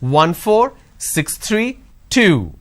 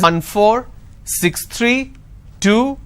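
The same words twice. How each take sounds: First: The pitch drops on the last number. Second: The pitch stays up on the last number. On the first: The list has ended. The speaker calls it right. "That's why it's important a drop tone" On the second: The list is not finished yet. The speaker calls it wrong. "if I'm not dropping this tone"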